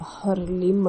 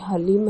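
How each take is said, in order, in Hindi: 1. h के बाद r फिर l ध्वनि आती है। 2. h के बाद l ध्वनि आती है। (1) "कई लोग कहते हैं कि हरलिम है" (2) "सही उच्चारण है वो हलीम है"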